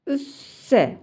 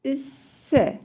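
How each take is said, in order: First: ÜSSE with a clean hissing s; non-lisped s. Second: A lisped th-like s in "isse". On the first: Teacher reading side by side for comparison, non-lisped s. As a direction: say "üsse" with a long s and no lisp. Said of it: "Peltek olmayan". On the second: Teacher reading side by side for comparison, lisped s. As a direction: say "isse" with the tongue near the front teeth. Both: Shown as a demonstration.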